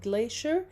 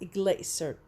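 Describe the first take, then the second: First: It is said with an American pronunciation. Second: It is said with a British pronunciation. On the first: "In American we pronounce it" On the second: "in British we pronounce it"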